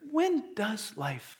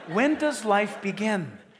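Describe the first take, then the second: First: It is said in a hissing snake voice. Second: It is said in a normal voice.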